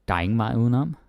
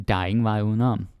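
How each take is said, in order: Both takes have the same delivery.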